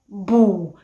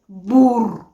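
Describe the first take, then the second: First: The final R sound is dropped. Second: The final R sound is pronounced. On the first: "They omit the R" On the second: "instead of saying bur"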